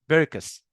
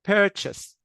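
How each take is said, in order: First: The middle consonant is a 'k' sound. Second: The middle consonant is a 'ch' sound. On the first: The speaker calls it wrong. "كانها كلمه سكول" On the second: The speaker calls it right. "لا هي هنا تشي ساوند"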